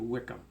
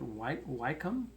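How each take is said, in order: First: The first syllable sounds like 'wick'. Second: The first syllable sounds like 'why'. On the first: The speaker calls it right. "It's actually" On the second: The speaker calls it wrong. "I pronounced it"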